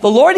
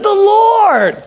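First: Said in the usual way. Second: Loud, high, drawn-out proclamation; triumphant exclamation. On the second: Retold or imitated. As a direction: belt it out as the climax. Pastor's climactic confirmation.

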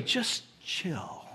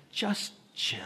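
First: "Just chill" said low and soft, laid-back; soft cool "Just chill". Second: "Just chill" whispered, slow and easy; cool whisper. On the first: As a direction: ease it out like a cool friend. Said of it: "Or even this way". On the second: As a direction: breathe it out like the coolest guy in the room. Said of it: "in the coolest way as you can". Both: Shown as a demonstration.

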